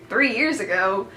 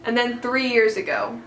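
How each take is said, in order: First: Disbelieving question with a wavy tune; incredulous echo. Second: Said in the usual way. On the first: Retold or imitated. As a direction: echo it back as if you can't believe it. Her stunned reaction to his words.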